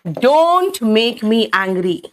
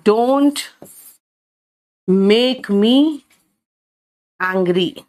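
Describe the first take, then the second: First: "Don't make me angry" said slowly as one phrase; slow model sentence. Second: "don't", "make me", "angry" each set apart by long pauses; word-by-word. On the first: Teacher giving pupils the whole sentence slowly. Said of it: "मुझे गुस्सा मत दिलाओ". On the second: Teacher breaking the sentence into pieces for pupils. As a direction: lay "don't make me angry" out one chunk at a time. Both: Shown as a demonstration.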